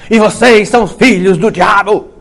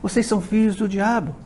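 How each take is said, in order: First: It sounds harsh and accusing, like a curse. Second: It sounds gentle and caring, like an explanation.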